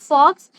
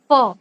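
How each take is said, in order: First: The word ends with a clear ks sound. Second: The word ends on the vowel, no ks. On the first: The speaker calls it wrong. "It's not फॉक्स" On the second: The speaker calls it right. "The correct pronunciation is फॉ"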